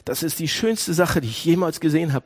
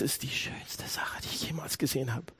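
First: Said in the usual way. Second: Hushed, softer awed whisper; whispered in wonder at the cross. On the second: Shown as a demonstration. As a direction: breathe it in quiet awe.

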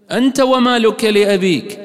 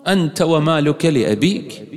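First: Emphatic quote. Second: Said in the usual way. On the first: Shown as a demonstration. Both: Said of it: "repeats the hadith louder".

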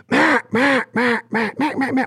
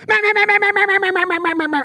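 First: High, nasal-free duck quacks in steady rhythm; duck hen call. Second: Very high, rushed run of meh sounds; humanistic duck call. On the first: Showing callers a real duck's rhythm, high quacks. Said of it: "So a duck will go". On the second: Mocking how human callers rush duck calls, high quacks. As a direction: rattle off quacks too fast and even. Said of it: "a human will get in there and go". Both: Shown as a demonstration.

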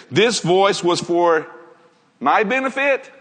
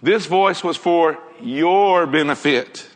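First: The mistaken reading, asked as a question; questioning wrong version. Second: Slow, settled "This voice was for your benefit" with a falling end, "your" firm; the right reading, said with calm certainty; corrected version. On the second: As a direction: state "your benefit" slowly and firmly as the correction. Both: Shown as a demonstration.

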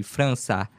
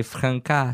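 First: França said the Portuguese way, ç like s; Portuguese pronunciation. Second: Franca said the French way, hard C like k; French spelling Franca. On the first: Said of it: "c'est avec un C D". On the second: Guest spells his hometown Franca, hard C. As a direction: say Franca with a plain k sound, French style. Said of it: "c'est avec un C". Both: Shown as a demonstration.

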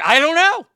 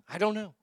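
First: Exasperated shout. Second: Said in the usual way. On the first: Real, not acted. Exasperated over shirt choice.

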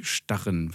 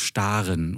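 First: „Starren“ mit kurzem a; kurzes a. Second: „Staren“ mit gedehntem a; langes a. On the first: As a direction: sprich „Starren“ mit a wie in Mann. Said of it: "und nicht Starren". (kurzes a in „Starren“, als Gegenbeispiel) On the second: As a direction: sprich „Staren“ mit a wie in Bahn. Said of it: "weil da ja nur ein". (langes a in „Staren“) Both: Shown as a demonstration.

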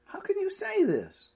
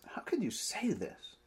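First: Exasperated outcry. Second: Whispered, weary disbelief; exasperated whisper. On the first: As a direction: throw the question up in exasperation. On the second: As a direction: breathe the question in quiet exasperation. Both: Acted. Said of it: "Jesus is a bit exasperated here".

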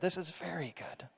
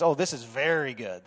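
First: Much softer, almost breathed repeat; hushed echo. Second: A touch lower, savoring oh; delighted, savoring. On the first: God admiring his creation, hushed and content. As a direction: let the repeat sink to a hush. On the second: God admiring his creation, gently delighted. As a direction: linger on oh as if admiring. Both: Retold or imitated. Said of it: "he says".

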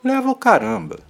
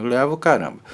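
First: High, loud and scornful; indignant. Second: Said in the usual way. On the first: Real, not acted. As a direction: throw it back in scorn. Indignant retort to a saying.

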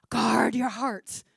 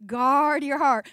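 First: Slow, hushed parental warning; whispered warning. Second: Slow, firm, voiced, weight on "heart"; emphatic repeat. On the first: Retold or imitated. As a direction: whisper it like a secret to a teen. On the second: Shown as a demonstration. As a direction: lay it down slowly as a rule, landing on "heart".

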